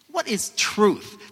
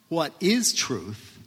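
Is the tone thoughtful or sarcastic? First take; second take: sarcastic; thoughtful. First: It is asked in a scathing, sarcastic tone. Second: It is asked in a thoughtful, philosophical tone.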